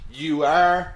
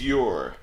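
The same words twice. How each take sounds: First: "You are" as two full words, louder; uncontracted form. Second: "you're" merged into one lower, falling syllable; contracted form. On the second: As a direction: run you and are together as "you're". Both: Shown as a demonstration.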